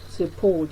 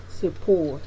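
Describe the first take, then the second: First: The unstressed vowel is a weak schwa. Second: The unstressed vowel is a weak schwa.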